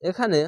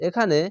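No difference in how they are said.

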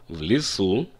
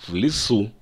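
Both takes have the same delivery.

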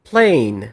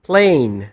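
No difference in how they are said.

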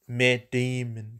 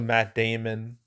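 First: The name is said in an imitated put-on voice. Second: The name is said in a normal voice.

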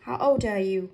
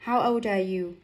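First: The d of old runs into are. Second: The d of old runs into are.

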